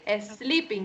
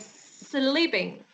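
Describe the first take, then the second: First: An extra vowel sound comes before the s. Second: The word begins directly with the s sound. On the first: The speaker calls it wrong. "You don't say a sleeping" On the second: The speaker calls it right. "you say sleeping"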